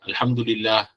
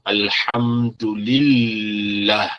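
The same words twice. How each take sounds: First: The L sound is short and single. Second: The L sound is held long and doubled. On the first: The speaker calls it wrong. "bukan Alhamdulillah ... salah" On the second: The speaker calls it right. "contoh Alhamdulillah, lillah"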